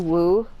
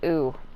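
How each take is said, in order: First: The word begins with a w sound. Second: The word begins with a bare vowel. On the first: The speaker calls it right. "it's supposed to be Woo" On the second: The speaker calls it wrong. "everybody says it as Ooh"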